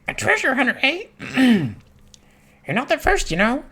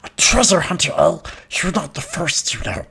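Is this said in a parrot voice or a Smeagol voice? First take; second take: parrot; Smeagol. First: It is said in a parrot voice. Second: It is said in a Smeagol voice.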